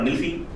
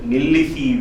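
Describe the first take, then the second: First: The word is said short and quick, dropping a syllable. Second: The word is said in full, with every syllable. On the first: "some people use it very short nilsi, um, very quickly" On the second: "nilisi is the right pronunciation"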